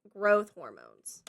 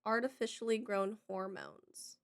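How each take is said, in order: First: Growth said slowly and low, drawn out; stress on Growth. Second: Said in the usual way. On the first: Shown as a demonstration. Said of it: "but you said growth". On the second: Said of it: "Artificially grown is what I said".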